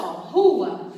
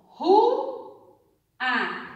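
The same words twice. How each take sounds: First: Said in the usual way. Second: "Ru-a" with a long pause between Ru and a; split into syllables. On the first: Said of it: "eu vou separar essa sílaba". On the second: Shown as a demonstration. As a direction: say "Ru", stop, then "a". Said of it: "E aí eu vou separar essa sílaba". (silabando "Ru-a", com pausa entre as vogais)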